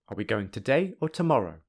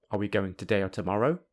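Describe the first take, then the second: First: The voice rises, then falls at the end. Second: The voice keeps rising up to the end. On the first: The listener should pick one of the two options. "the rise is before the first option, and the fall is before the second option" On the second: The listener should answer yes or no. "if you only use the rising intonation"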